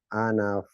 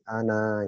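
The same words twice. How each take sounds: First: Ana runs straight into the next word. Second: Ana is said alone, ending in a stop. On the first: The reading continues past this word. "kalau dilanjutkan" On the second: The reading stops at this word. "kalau kita berhenti, kita baca jadi ana gitu"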